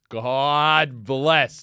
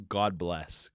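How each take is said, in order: First: Louder, drawn-out blessing; big emphatic thanks; emphatic relief. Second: Low, soft, quick blessing; quiet thankfulness; low relieved sigh of thanks. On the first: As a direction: stretch it out with heartfelt emphasis. Same relief repeated, drawn out. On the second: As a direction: say it low and under-played. Relieved reaction, first low take. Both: Retold or imitated.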